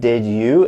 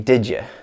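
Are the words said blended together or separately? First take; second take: separately; blended. First: The two words are said separately and clearly. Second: The words blend into one sound like didja. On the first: "instead of did you" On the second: "the sound here changes to j, and then the you changes to ya"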